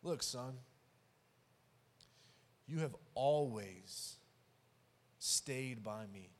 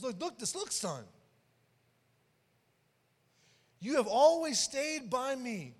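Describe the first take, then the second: First: Tender father. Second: Emphatic father. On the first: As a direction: ease him down gently, no push. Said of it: "I love what the father says back". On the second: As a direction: drive the words home to the son. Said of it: "Get what the father says". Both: Retold or imitated.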